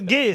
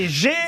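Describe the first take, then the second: First: The syllable starts with a hard g sound. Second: The syllable starts with a soft zh sound. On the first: The speaker calls it right. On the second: The speaker calls it wrong. "j'ai prononcé G"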